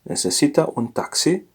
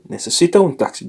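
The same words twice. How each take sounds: First: Said in the usual way. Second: "Necesita un taxi" asked quickly, rising as a question; question tune. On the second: Shown as a demonstration. Teacher asks the gentleman if he needs a taxi, questioning tune. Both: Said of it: "it's a question".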